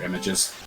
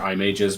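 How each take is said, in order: First: The first syllable sounds like 'im'. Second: The first syllable sounds like 'eye'. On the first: The game's fun names setting is off. "but otherwise they're images" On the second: The game's fun names setting is on. "If you have the fun ma- fun names on, they're eye mages"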